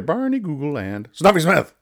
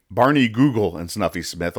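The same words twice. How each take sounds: First: "Barney Google" small and high, "Snuffy Smith" big and punched; tiny then giant. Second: Said in the usual way. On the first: Shown as a demonstration. Host mocking the title's lettering, tiny then giant. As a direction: act out the print size, squeaking "Barney Google", then booming "Snuffy Smith". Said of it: "look how tiny those words are".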